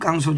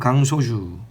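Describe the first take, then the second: First: The first consonant is a tense, hard kk. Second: The first consonant is a plain, lax k. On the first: The speaker calls it wrong. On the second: The speaker calls it right.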